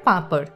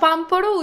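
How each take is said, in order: First: The name is said with a nasalized vowel. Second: The name is said with a full m sound. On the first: This is how local people say it. "Local মানুষ ওটাকে উচ্চারণ করে পাঁপড়" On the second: This is how outsiders may say it. "পাম্পড়ও উচ্চারণ করতে পারো"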